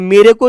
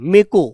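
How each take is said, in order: First: The first word is said in full, two syllables. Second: The first word is clipped to one syllable. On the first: "मेरे को नहीं बोलते" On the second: "वो मे को बोलते हैं"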